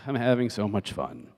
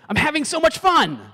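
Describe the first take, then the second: First: It sounds sarcastic and fed up. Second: It sounds sincere and genuinely happy. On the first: The party is actually no fun. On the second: The party really is fun. "could they be saying"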